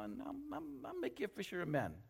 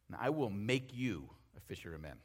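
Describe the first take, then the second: First: It sounds relaxed and casual, like an offer. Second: It sounds firm and commanding, like an order. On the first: Following is optional. "Maybe Jesus said it like this. ... it was kind of like you could do it or not" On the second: Following is required, a summons. "Just same words, different tone. ... What if it wasn't so much of an invitation as a summons?"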